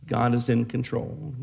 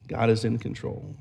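The two takes are said the same way.

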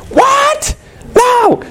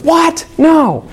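First: Very high shouted what, no; outraged shriek. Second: High, startled what, no; shocked disbelief. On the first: Mrs Schwartz learning her son is to blame, shrieked outrage. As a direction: shriek it in a whole new put-on voice. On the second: Mrs Schwartz told her son said it, high mock shock. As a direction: gasp it out, pitched well up in mock shock. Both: Retold or imitated. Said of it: "And Missus Schwartz says".

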